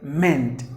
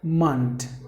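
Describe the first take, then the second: First: The ending's vowel sounds like 'meant'. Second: The ending's vowel sounds like 'mont'. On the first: The speaker calls it wrong. "not like meant" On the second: The speaker calls it right. "you have to pronounce it like mont"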